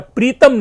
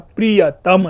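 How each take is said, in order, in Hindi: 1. यह शब्द छोटा करके दो अक्षरों में बोला जाता है। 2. यह शब्द पूरा बोला जाता है, तीन अक्षरों में। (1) "वस्तुतः यह प्रीतम नहीं है" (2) "यह प्रियतम है"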